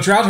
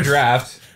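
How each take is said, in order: First: The word ends with a t sound. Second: The word ends with an f sound. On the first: The speaker calls it wrong. "don't say Guinness drought" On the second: The speaker calls it right. "It's draft"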